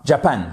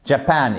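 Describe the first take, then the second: First: Japan stressed on the first syllable; wrong first-syllable stress. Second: Japan with the second syllable stressed. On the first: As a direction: put the weight on JA in Japan, weak ending. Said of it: "Japan et pas Japan". (Japan accentué à tort sur la première syllabe) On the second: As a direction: say Japan with the weight on -PAN. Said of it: "on accentue, pardon, la seconde syllabe". (Japan accentué sur la seconde syllabe) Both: Shown as a demonstration.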